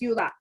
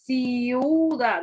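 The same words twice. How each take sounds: First: The i and u glide together in one syllable. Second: The i and u are split into two syllables. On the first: The speaker calls it right. "tú dices ciudad" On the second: The speaker calls it wrong. "tú no dices ciudad"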